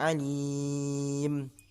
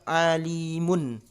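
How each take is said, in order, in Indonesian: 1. Kata ini berakhir pada m tertutup tanpa vokal. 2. Huruf m akhir bersuara karena diikuti vokal. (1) "Jadi mati. Jadi sukun huruf mimnya karena ada tanda waqaf" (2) "hidup munnya, eh, mimnya"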